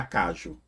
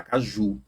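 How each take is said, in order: First: Caju stressed on CA instead of JU; misplaced first-syllable stress. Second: Caju with the stress on last syllable JU; stress on final JU. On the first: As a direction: hit "ca" in caju, leave "ju" weak. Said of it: "Você não fala caju". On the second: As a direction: keep "ca" light, land on "ju" in caju. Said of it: "demora mais no ju". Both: Shown as a demonstration.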